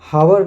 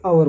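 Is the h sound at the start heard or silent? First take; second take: heard; silent. First: The word begins with an audible h sound. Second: The word begins with a vowel, no h. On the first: The speaker calls it wrong. "हावर ना बोल के" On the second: The speaker calls it right. "आवर बोला जाता है"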